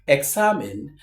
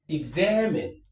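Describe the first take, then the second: First: The x is pronounced as ks. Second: The x is pronounced as gz. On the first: The speaker calls it wrong. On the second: The speaker calls it right.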